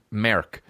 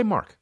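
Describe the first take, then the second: First: "Merck" with an Irish vowel; Irish pronunciation. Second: Said in the usual way. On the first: Retold or imitated. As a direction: say "Merck" for Mark, Irish style. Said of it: "That's how they say it in Ireland". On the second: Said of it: "Just say Mark".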